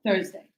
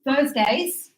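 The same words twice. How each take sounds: First: Said in the usual way. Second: "Thursdays" with the final S drawn out and stressed, rising. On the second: Shown as a demonstration. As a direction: lean on the S of "Thursdays". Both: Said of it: "this S means every".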